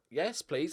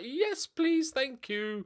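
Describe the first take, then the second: First: Said in the usual way. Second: A much higher, delighted yes please; mock-thrilled acceptance of a bargain; eager yes please. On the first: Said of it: "and I'm like". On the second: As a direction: squeal the yes please with glee. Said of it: "I'm like".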